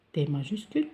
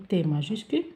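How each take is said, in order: Both takes have the same delivery.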